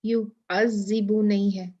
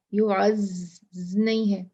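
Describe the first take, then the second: First: يعذب with ذ between the teeth; correct يعذب. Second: يعز with a plain Urdu z; wrong z. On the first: Teacher giving the right pronunciation. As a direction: say يعذب with a true ذ. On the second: Teacher showing the mistaken z sound. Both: Shown as a demonstration.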